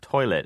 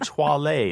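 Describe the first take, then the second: First: The word is pronounced in the ordinary way. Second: The word is pronounced in an odd, comic way. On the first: "instead of toilet" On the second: "words that I mispronounce on purpose"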